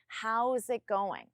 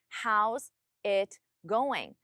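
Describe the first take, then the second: First: The words run together without pauses. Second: Each word is separated by a pause. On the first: The speaker calls it right. "I still don't pause between them" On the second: The speaker calls it wrong. "But you pause between those words"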